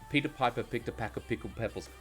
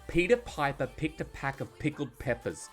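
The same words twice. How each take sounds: First: It is said weakly, with little force. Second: It is said forcefully, with strong emphasis. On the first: The speaker calls it wrong. "It's not" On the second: The speaker calls it right. "I'm putting emphasis, I'm opening, I'm putting diaphragm into it"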